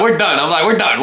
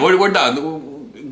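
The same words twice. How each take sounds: First: Louder, clipped retold "we're done"; ending the visit with a girl he barely knows, loud; retold firm dismissal. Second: Slow, deliberate "we're, we're done"; repeating the verdict to the girl, slow; slow drawn-out repeat. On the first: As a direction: shut it down flat out. Cutting off the girl. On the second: Retold or imitated. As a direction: spell it out slowly for finality.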